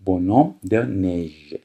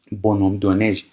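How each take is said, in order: First: Bonhomme de neige drawn out very slowly, syllable by syllable; slow dictation of Bonhomme de neige; slow model reading. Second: Said in the usual way. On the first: Shown as a demonstration. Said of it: "repeated very slowly". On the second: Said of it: "repeated at normal pace".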